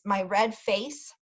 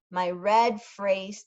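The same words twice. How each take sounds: First: "face" said slowly and carefully, stress on "red"; careful correction. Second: "phrase" read for "face", slowly; misreading. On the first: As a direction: fix the slip, slowly landing on "face". Self-correction of the misread word. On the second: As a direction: slips and says "phrase" instead of "face". Misread word, then corrected. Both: Real, not acted.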